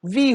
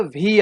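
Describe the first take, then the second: First: "वी" with a clear teeth-on-lip v; proper "वी"; correct V. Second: Mock "वी" said as wee; wrong V. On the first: Shown as a demonstration. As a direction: bite the lip for "वी". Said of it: "वी नहीं होता है बच्चों". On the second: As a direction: mimic the Bihar "वी". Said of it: "वी को वी बोलते हुए सुना".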